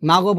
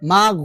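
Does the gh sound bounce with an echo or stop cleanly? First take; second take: bounce; clean stop. First: The gh sound bounces with an added echo. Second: The gh sound stops cleanly with no echo. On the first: The speaker calls it wrong. "মাগো বলা যাবে না" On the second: The speaker calls it right. "বলতে হবে মাগ"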